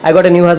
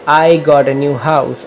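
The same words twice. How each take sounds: First: It is said quickly, in a rush. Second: It is said slowly, with feeling. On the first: The speaker calls it wrong. "जल्दबाजी नहीं, ऐसे नहीं करना" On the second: The speaker calls it right. "Like this eleven time"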